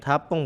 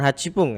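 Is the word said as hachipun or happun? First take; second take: happun; hachipun. First: The middle has a doubled, held p sound. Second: The middle has a full 'chi' syllable. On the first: The speaker calls it right. "Delapan menit hapung" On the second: The speaker calls it wrong. "bukan hacipung"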